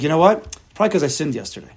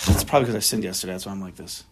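First: Said in the usual way. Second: Lower, fast, deflated mumble that fades softer; dejected. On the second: Retold or imitated. Person blaming himself for yesterday's sin, dejected mumble. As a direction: sigh it out like he's given up on himself. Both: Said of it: "how does he feel right now".

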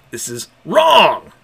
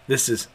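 First: Loud, slow, dragged-out "wrong"; anguished cry. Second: Said in the usual way. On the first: Acted. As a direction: let the word wrong break into a wail. Dominic's outburst.

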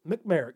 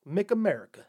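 First: "McMerica" with the A after Mc dropped; "McMerica" said as three syllables, mick-MER-ica; slurred patriotic contraction. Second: Said in the usual way. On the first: Shown as a demonstration. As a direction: run Mc straight into "merica" as "McMerica". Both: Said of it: "It should have just been McMerica".

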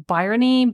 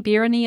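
First: "Byrony" with first syllable like "buy"; uncertain pronunciation. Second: "Byrony" with first syllable like "beer"; alternative pronunciation. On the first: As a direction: say "Byrony" as BYE-ruh-nee. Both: Shown as a demonstration. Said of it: "I think is the name".

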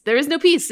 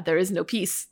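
First: "There is no peace" louder, with "peace" punched hard; stress on peace. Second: Said in the usual way. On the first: Shown as a demonstration. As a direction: hit "peace" hard and loud. Repeats line for dramatic emphasis.

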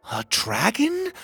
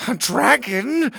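First: Much higher, slow astonished question; surprised. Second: Much higher, louder, slow frightened squeak; whimpered. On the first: Pocket seeing the dragon hatch, astonished. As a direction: gasp it out in wonder. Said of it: "Pocket said in surprise". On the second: The king hiding under the table, whimpering. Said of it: "the king whimpered". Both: Acted.

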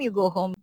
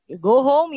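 First: Said in the usual way. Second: Louder, barked order to go home; mock shouted order. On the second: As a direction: shout it at the late worker like the manager. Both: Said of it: "Chinese said".

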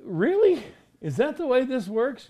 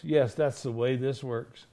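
First: High-pitched, rising mock disbelief; incredulous question. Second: Said in the usual way. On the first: Doubting listener questioning the teaching, incredulous.

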